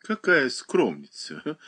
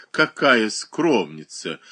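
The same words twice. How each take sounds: First: Slow, teasing «Какая скромница»; lightly hammed-up jeering; mocking laugh. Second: «Какая скромница» slower and louder, as a jeer; understated loud teasing; loud laughing. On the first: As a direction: drawl «Какая скромница» with mild mockery. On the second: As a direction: stretch «Какая скромница» into a mild mock laugh. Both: A narrator's reading. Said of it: "громко засмеялась Ольга Никифоровна".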